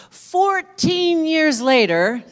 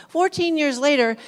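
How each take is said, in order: First: Slow, drawn-out and much higher and louder; drawn-out dramatic announcement; dramatic pause line. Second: Brisk resumed emphasis; quick restart. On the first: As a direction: stretch "Fourteen years later" out slowly, high and loud, like a big reveal. Dramatic build to the story turn. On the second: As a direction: pick the line back up briskly after the aside. Restarts the line after an aside. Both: Real, not acted.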